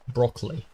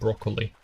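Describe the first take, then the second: First: The middle vowel is dropped, two syllables. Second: The middle vowel is pronounced, three syllables. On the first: The speaker calls it right. "The O is silent" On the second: The speaker calls it wrong.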